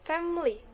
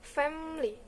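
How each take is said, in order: First: Every syllable is pronounced in full. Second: The middle vowel is dropped. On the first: "family become" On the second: "example of deletion"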